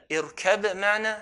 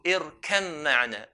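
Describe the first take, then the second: First: The b sound is kept before the m. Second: The b sound is merged into the m. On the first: "how do you pronounce?" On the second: "We merge the ba onto the mim"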